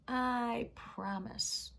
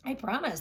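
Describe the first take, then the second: First: Very slow drawn-out promise; slow grudging promise. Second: Higher, louder quick promise; princess promising. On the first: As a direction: stretch it out reluctantly. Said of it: "she said it again". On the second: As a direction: toss off the promise brightly. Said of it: "the princess said". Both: Acted.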